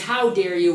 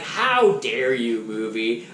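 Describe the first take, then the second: First: Said in the usual way. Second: Smiling, mock-offended scolding; playful fake indignation; mock outrage. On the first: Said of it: "with a smile on my face". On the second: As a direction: scold the movie with a grin. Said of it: "how dare you with a smile on my face".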